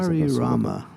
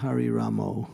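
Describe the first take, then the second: First: The final vowel is an open a sound. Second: The final vowel is an o sound. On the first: The speaker calls it right. "It's Hari Rama" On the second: The speaker calls it wrong. "It's not Hari Ramo. ... they change the A's to O's"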